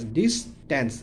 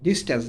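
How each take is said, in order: First: distance split in two, dis - tans; syllable by syllable. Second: Said in the usual way. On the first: Shown as a demonstration. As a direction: pause inside distance after "dis". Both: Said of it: "ভেঙে ভেঙে উচ্চারণ করব".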